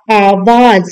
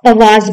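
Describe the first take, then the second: First: आवाज with a long opening आ; correct pronunciation. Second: आवाज with a short first vowel; wrong pronunciation. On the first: Teacher giving pupils the corrected word, long-vowel pronunciation. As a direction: say आवाज slowly as "aa-waaz". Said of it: "तो ये हो जाएगा". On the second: Teacher quoting some people's error, short-vowel pronunciation. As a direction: say आवाज as "awaaz", opening on अ. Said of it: "जो कि गलत है". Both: Shown as a demonstration.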